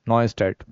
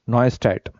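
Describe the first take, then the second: Both takes have the same delivery.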